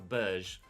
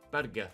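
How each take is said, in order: First: The g is pronounced as a soft sound. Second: The g is pronounced as a hard g. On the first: The speaker calls it wrong. "not a like a Berge" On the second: The speaker calls it right. "So it is a hard G"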